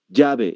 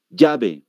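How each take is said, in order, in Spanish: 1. Se dice con acento español de Perú. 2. Se dice con acento español de Perú.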